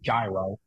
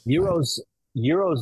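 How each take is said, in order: First: The word begins with a j sound. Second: The word begins with a y sound. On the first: This is the Americanized way to say it. "The Americanized version is gyro" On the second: This is the original Greek way to say it. "Euros is the correct pronunciation of that term"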